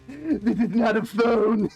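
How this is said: It is said in a new, changed character voice.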